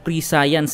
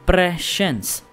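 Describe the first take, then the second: First: It sounds like 'pre' followed by 'science'. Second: It does not sound like 'pre' plus 'science'. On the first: The speaker calls it wrong. "Not pre-science guys ha" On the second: The speaker calls it right. "Yun yung tamang pronunciation guys"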